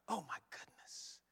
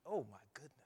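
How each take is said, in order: First: Whispered "Oh, my goodness" in awe; awed whisper. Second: Said in the usual way. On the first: Real, not acted. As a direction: breathe "Oh, my goodness" as if overwhelmed. Repeated exclamation, whispered.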